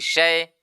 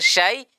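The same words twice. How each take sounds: First: The vowel leans toward i. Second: The vowel is a clear open a. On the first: The speaker calls it wrong. "jadi syai" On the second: The speaker calls it right. "Harusnya syai"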